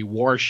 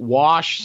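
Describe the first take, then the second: First: The word is said with an extra sound added. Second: The word is said with no added sound. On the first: "we tend to add the occasional vowel sound or consonant sound" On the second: "we don't wash something"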